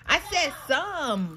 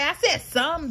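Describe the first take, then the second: First: "said" drawn out slowly and stressed. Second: Said in the usual way. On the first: Shown as a demonstration. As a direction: lean hard on "said".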